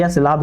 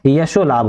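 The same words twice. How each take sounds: First: यश लाभ with no "o" ending on यश; misspelt compound read out. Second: यशो लाभ with a clear "o" ending the first word; corrected compound. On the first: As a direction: say यश लाभ as two bare words. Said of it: "यश लाभ गलत लिखा है". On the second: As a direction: say यशो with a final long "o" before लाभ. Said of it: "यशो लाभ होता है". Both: Shown as a demonstration.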